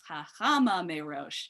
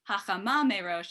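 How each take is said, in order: First: The first word is stressed on its second-to-last syllable. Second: The first word is stressed on its last syllable. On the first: The speaker calls it right. "it's the penultimate syllable, it's the second to last syllable" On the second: The speaker calls it wrong. "instead of the ultimate syllable, stress on the last syllable"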